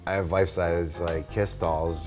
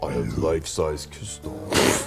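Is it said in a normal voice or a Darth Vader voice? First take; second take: normal voice; Darth Vader. First: It is said in his normal voice. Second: It is said in a deep Darth Vader voice.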